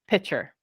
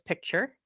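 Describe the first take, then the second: First: No k sound is heard before the ch. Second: A k sound is heard before the ch. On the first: "some people pronounce it pitcher" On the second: "I pronounce this picture"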